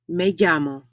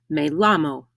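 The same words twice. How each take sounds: First: The double L is said like an English Y. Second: The double L is said like an English L. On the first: The speaker calls it right. "the double L in llamo is pronounced like ya" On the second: The speaker calls it wrong. "You will never hear"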